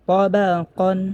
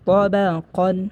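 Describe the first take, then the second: The two takes are said the same way.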